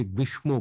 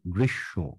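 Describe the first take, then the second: First: গ্রীষ্ম said with a full m sound, the common mistake; common wrong form. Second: গ্রীষ্ম said as গ্রিশশো, m not sounded, lower; correct pronunciation. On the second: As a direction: model গ্রীষ্ম softly, m dropped, ending গ্রিশশো. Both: Shown as a demonstration. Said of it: "উচ্চারণটা কি হবে".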